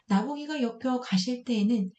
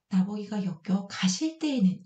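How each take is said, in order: First: The line is read straight through at normal speed. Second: The line is read slowly with a break inside it. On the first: The speaker calls it wrong. "이렇게 읽는 것보다" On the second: The speaker calls it right. "조금 더 강조하는 거죠. 그리고 천천히 읽게 만드는 거죠"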